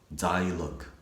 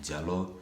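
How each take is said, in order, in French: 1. Le mot est prononcé avec des sons anglais. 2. Le mot est prononcé avec des sons français.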